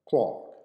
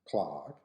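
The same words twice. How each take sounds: First: It is said with a British accent. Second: It is said with an American accent.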